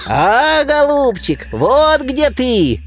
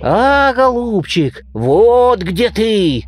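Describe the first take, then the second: First: High squeaking bird voice, drawn out slowly; squeaky beak voice. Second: High, slow mock roar; roaring bear. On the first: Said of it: "запищал птичий нос". (пискливый птичий голос, нараспев) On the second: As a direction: bellow it like a bear. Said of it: "заревел медведь". (наигранный рёв медведя) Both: A narrator's reading.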